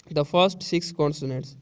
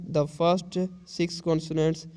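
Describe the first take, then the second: First: Very slow, each word spaced; slow dictation read. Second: Very slow, word by word; slow dictation read. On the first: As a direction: read it slowly for the class. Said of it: "teacher reads text slowly again". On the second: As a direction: read it out slowly for the class. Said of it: "teacher reads text slowly". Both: Shown as a demonstration.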